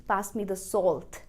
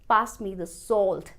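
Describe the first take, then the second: The two takes are said the same way.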